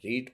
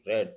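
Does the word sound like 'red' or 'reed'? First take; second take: reed; red. First: The vowel is long, like in reed. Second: The vowel is short, like in red. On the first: It is the present form of the verb. "First form रीड पढ़ी जाती है" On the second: It is the past form of the verb. "Second और third form को रेड पढ़ते हैं"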